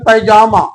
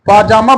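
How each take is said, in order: First: The first vowel sounds like 'ai'. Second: The first vowel sounds like 'aa'. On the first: The speaker calls it wrong. "पैजामा नहीं बोलिएगा" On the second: The speaker calls it right. "पाजामा बोलेंगे"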